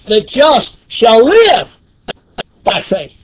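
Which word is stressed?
live. The stress falls on the word live. The focus is on living by faith. "And here in Galatians, it shall live"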